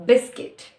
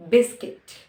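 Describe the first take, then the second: First: Biscuit, said louder and clearly; teacher repeating biscuit for the class to hear; clear demo word. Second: Biscuit again, loud and clear; repeated demo word. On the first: Teacher presenting biscuit to learners, louder. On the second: Teacher drilling the word biscuit, loud. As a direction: repeat biscuit firmly for learners. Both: Shown as a demonstration. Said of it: "it is used".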